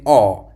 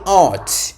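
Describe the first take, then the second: First: The final T sound is dropped. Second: The final T sound is clearly pronounced. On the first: "He said art. You see, the T. He didn't pronounce the T sound" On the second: "He didn't say art"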